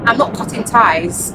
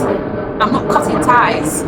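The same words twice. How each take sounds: First: "I'm not cutting ties" slowly, with the weight on not; firm repeated denial. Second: "I'm not cutting ties" said very slowly, each word weighted, falling on ties; slow emphatic denial. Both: Real, not acted. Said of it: "I have to emphasize".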